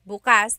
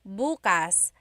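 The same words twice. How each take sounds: First: The stress is on the second syllable. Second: The stress is on the first syllable.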